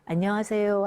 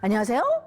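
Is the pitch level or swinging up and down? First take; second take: level; swinging. First: The pitch stays level and straight. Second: The pitch swings strongly up and down. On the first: It sounds much more cultured. The speaker calls it right. "훨씬 더 교양 있게 들린다" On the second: It sounds less refined. The speaker calls it wrong. "너무 업앤다운이 심한 사인 코사인이 이렇게 심한"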